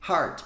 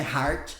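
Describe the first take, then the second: First: "Heart" with a vowel between A and O; right vowel. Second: "heart" with an open Brazilian A; wrong open vowel. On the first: Teacher models the correct "Heart" vowel for students. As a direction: say "Heart" with a rounded, half-open vowel. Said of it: "É um som mais próximo de heart". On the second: Teacher shows students the wrong open-A "heart". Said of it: "não é heart, aberto assim". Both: Shown as a demonstration.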